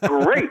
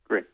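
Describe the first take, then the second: First: It is said with confidence, firmly. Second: It is said without confidence, hesitantly.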